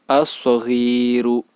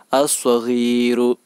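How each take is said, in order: No difference in how they are said.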